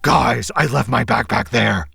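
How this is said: It is said in a put-on Batman voice.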